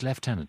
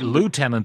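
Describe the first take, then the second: First: The first syllable sounds like 'lef'. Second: The first syllable sounds like 'loo'. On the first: This is the way the Irish Army says it. "But in the Irish Army, it is lieutenant" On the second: This is the American way of saying it. "I see, as an Americanism"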